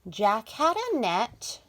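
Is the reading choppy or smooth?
smooth. The words flow together without breaks. The speaker calls it right. "We want to read in a smooth voice like this"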